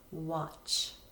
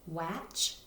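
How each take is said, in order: First: The vowel sounds like the vowel in hot. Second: The vowel sounds like the vowel in cat. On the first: The speaker calls it right. "the A makes the sound ah, like short O" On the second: The speaker calls it wrong. "We see just an A, we would think it would make the sound ah. But if we sound it out that way"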